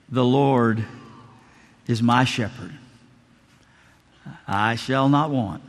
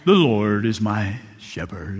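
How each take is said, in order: First: Simple heartfelt recital. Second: Low, slow, theatrical actor's recitation; dramatic deep reading. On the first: Old pastor recites psalm from memory. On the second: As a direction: ham it up like a stage actor reading scripture. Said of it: "read in a very dramatic voice, modulating his voice, deep tone". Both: Retold or imitated.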